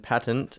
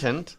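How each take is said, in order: First: The word is said the American way. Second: The word is said the British way. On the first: "is uh, American" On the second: "is apparently the British"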